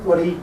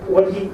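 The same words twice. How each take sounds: The two takes are said the same way.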